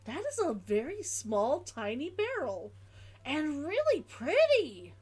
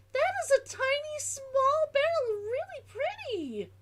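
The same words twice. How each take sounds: First: Said in the usual way. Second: Put-on much higher, sing-song baby talk; cutesy high voice. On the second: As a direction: coo it like talking to a kitten. Repeats line in cutesy voice.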